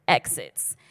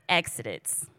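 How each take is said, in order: First: Said in the usual way. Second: "exits" fumbled with an extra syllable, "ex-i-dits"; garbled word. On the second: Real, not acted. Preacher ending Elijah's mic drop, "exits" stumbled into three syllables. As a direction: trip over "exits" so it comes out "ex-i-dits". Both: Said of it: "That came out weird".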